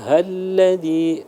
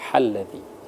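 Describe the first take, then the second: First: The h is light, not from deep in the throat. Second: The h comes from deep in the throat. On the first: The speaker calls it right. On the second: The speaker calls it wrong.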